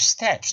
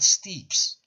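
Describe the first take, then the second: First: The vowel is short, as in 'bed'. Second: The vowel is long, as in 'see'. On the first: The speaker calls it right. "For example, steps" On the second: The speaker calls it wrong. "not steeps"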